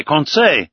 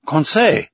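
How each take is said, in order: First: Crying out a name again. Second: Crying out a name. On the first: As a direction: call Conseil once more, with urgency. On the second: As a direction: call Conseil sharply, mildly raised. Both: A narrator's reading. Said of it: "cried I".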